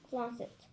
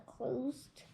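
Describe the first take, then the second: First: Closet said fully as "closet", ending in -set; careful corrected reading; corrected word. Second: Closed said as "closed" with a final d sound, not closet; stumbling misreading of closed. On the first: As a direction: reads closet properly, klah-zit. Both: Real, not acted.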